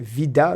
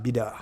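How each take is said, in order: First: The word begins with a V sound. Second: The word begins with a B sound. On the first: "c'est un V, Vida Loca" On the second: "mais je pense que euh, c'est Bida"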